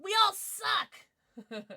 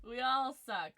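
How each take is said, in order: First: Loud, high, drawn-out group roast; playful high-pitched yell of defeat; mock-despair shout. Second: Said in the usual way. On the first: Real, not acted. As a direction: shout the shared defeat slowly. Everyone lost the guessing game.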